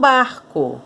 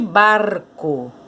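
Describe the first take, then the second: First: The R is said the Rio de Janeiro way. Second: The R is said the Piracicaba way. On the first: This is how people speak in the city of Rio de Janeiro. "na cidade do Rio de Janeiro as pessoas falam barco" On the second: This is how people speak in Piracicaba, São Paulo state. "se você for lá para Piracicaba, lá no estado de São Paulo, essa palavra é chamada de barco"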